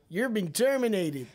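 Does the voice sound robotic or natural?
natural. It is said in a natural, unrobotic voice.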